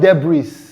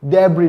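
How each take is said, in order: First: The final S sound is pronounced. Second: The final S sound is silent. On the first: The speaker calls it wrong. "not debris" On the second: The speaker calls it right. "The sound is not pronounced"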